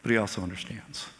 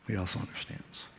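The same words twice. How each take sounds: First: Said in the usual way. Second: Much softer, nearly whispered echo; He also understands, hushed and tender. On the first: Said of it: "repeated for emphasis". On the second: Shown as a demonstration. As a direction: say it again gently under your breath. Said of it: "echoed softly".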